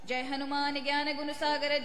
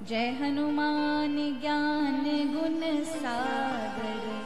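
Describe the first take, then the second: First: It is forceful and heroic, not too fast. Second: It is slow, pausing after each word. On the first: It is recited when facing enemies or severe hardship. "वीर रस से संपन्न होकर ... ज्यादा तेज गति भी ना हो" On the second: It expresses devotional feeling toward the deity. "मंद गति से बोलनी चाहिए। ... एक एक शब्द को ठहराव के साथ बोलना"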